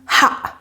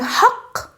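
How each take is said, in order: First: The word ends with a glottal stop. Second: The word ends with a q sound.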